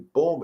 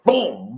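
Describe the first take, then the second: First: It is said softly, with little force. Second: It is said loudly, with strong force. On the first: A small correction is enough at a low level. The speaker calls it right. "it could be boom" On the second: A strong correction is needed at a high level. The speaker calls it wrong. "at a higher level, I have to correct higher"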